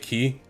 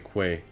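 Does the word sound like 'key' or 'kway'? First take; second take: key; kway. First: It sounds like 'key', with no w sound. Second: It starts with a 'kw' sound, like 'kway'. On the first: "a lot of people say key" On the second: "it's spelled QU, like question, so I say quay"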